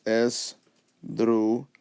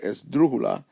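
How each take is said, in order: First: "esdrújula" slowly split as es, dru, ju, la; divided into syllables. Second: "esdrújula" as one word, lifted on DRÚ; stress on DRÚ. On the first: Teacher dividing the word by syllables, "esdrújula" slow and separated. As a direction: pause between each syllable of "esdrújula". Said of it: "divide the word by, by consonants, syllables". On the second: Teacher showing where it goes up, stress on DRÚ in "esdrújula". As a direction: hit the second syllable of "esdrújula". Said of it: "it goes up here". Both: Shown as a demonstration.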